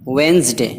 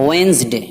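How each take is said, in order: No difference in how they are said.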